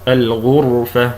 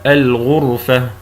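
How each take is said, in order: Both takes have the same delivery.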